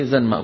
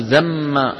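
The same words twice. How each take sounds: First: زنما said zan-ma, with the n kept clear; clear n before m. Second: زما said zamma, with the n swallowed into a doubled m; merged n into m. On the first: Teacher to students giving the correct reading. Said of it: "لابد أن نقول إيه". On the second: Teacher showing the forbidden merged reading. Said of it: "فلا يصح أن نقول". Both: Shown as a demonstration.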